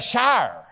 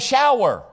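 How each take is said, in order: First: The vowel is flattened, like the word 'shire'. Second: The vowel is the standard 'ow' diphthong. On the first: "He takes a shire" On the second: "my brother does not take a shower"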